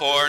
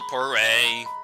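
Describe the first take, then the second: First: The name is said as one syllable. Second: The name is said with two syllables. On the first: The speaker calls it right. "it's pronounced pour" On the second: The speaker calls it wrong. "not pourray"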